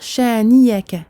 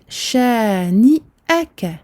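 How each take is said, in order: First: A y sound replaces the glottal stop. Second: A glottal stop is heard before the a. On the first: The speaker calls it wrong. "l'erreur fréquente, c'est de dire shani'aka" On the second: The speaker calls it right. "Ici, c'est donc shani aka"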